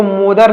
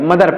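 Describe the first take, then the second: First: मोदर with a long "o" in front; mispronounced mother. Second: मदर with a short "uh" vowel; correct mother pronunciation. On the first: Teacher warns learners off this reading, mispronounced मोदर. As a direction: say मोदर with a wrong "mo" first syllable. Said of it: "इसको मोदर नहीं पढ़ेंगे". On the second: Teacher gives learners the right reading, correctly pronounced मदर. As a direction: say मदर with "muh" as the first syllable. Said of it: "मदर पढ़ेंगे". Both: Shown as a demonstration.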